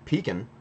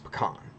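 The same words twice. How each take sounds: First: It is said with a Northeastern pronunciation. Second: It is said with a Western pronunciation. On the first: "is more of a northeast, um, mid-Atlantic" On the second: "you go out west and it's pecan"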